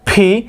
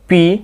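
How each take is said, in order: First: The p is said with a strong puff of air. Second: The p is said without a puff of air. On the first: The speaker calls it right. "দেখবেন কি জোরে একটা explosion of air" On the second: The speaker calls it wrong. "সিম্পলভাবে যদি পি বলি পি তখন কি বাতাসটা ওইভাবে বের হয়ে আসে না"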